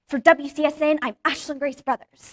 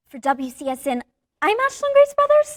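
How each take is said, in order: First: It is said confidently, owning it. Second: It is said unsure, without owning it.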